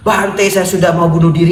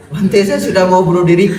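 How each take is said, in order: First: Loud high plea to the monk; half-joking cry of despair; desperate outcry. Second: Loud high plea, laughing at the edges; mock wail of despair; desperate outcry. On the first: Retold or imitated. Umat berseru putus asa. (seruan putus asa yang setengah bercanda) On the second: Umat berseru putus asa, diulang. (seruan putus asa setengah tertawa)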